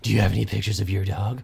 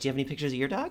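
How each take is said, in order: First: It is said in a Darth Vader voice. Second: It is said in a flirty, girlish voice.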